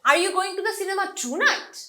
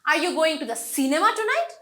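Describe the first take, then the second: First: The word tonight is stressed. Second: The word cinema is stressed. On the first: Is it tonight, or some other day? "মানে তুমি কি আজ রাত যাচ্ছ নাকি অন্য কোনো দিন যাবা" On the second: Is the cinema the place, or somewhere else? "আজকে কি তুমি সিনেমাতেই যাচ্ছ নাকি অন্য কোনো জায়গায় যাচ্ছ"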